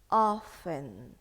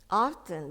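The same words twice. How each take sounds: First: The T sound in the middle is silent. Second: The T sound in the middle is pronounced. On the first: "T in here is silent. So I think it is better if we're going to pronounce it often" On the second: "some of the people they pronounce the T"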